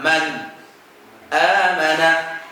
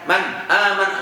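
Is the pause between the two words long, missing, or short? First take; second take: short; missing. First: A brief pause comes between the two words. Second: The words run together with no pause. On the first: The speaker calls it right. "cara baca sakatnya gimana?" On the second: The speaker calls it wrong. "Kalau terlalu cepat"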